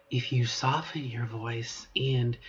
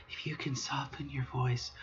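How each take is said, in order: First: Said in the usual way. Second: Voiceless whispered demo of a softened voice; soft whisper. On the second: Shown as a demonstration. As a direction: breathe it out gently, no voice.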